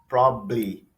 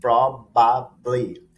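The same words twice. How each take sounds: First: It is said faster, with sounds shortened. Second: It is said at a normal, careful speed.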